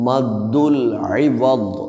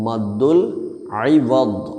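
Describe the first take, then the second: No difference in how they are said.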